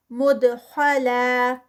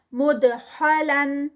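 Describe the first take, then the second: First: مدخلا held light for two counts; recited stop form. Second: مدخلن drawn out, nasal end; recited continuous form. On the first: Teacher showing the stop stretched. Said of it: "ٹو counts پہ stretch". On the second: Teacher reciting continuously. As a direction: chant مدخلن slowly. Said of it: "Quran recitation demo". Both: Shown as a demonstration.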